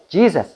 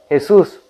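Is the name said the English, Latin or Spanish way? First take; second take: English; Spanish. First: The name is said with an English pronunciation. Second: The name is said with a Spanish pronunciation. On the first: "o en inglés" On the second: "o en español"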